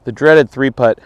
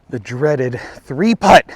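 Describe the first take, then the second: First: Said in the usual way. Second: "The dreaded three putt" drawn out slowly with a falling close; slow mock-dramatic lament. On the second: Golfer to viewers after the three-putt, slow mock-ominous. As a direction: savour each word like a gloomy announcer.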